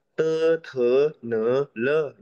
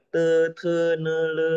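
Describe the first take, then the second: First: "te, te, ne, le" with each syllable pitched differently; uneven tones, wrong way. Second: "Te, te, ne, le" held on one high, level tone; same level tone. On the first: Teacher shows what not to do, differing tones. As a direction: say "te, te, ne, le" with shifting tones, not level. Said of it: "Jangan beda-beda". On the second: Teacher shows pupil all tones the same, level tone. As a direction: say "Te, te, ne, le" evenly, no rise or fall. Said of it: "Jadi sama semua nadanya". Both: Shown as a demonstration.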